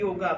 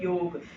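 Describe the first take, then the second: First: The word ends with an added a vowel. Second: The word ends on the consonant g. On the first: This is the English form of the word. "English में क्या है योगा" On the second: This is the Hindi form of the word. "Hindi में क्या है योग"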